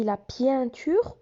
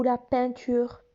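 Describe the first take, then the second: First: Pienture said with a y glide, pyan-ture; wrong on purpose. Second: Said in the usual way. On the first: Shown as a demonstration. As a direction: deliberately mispronounce pienture, gliding into the nasal vowel. (pienture prononcé pi-in, erreur exprès) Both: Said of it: "Est-ce que je dis la pienture ou la peinture?".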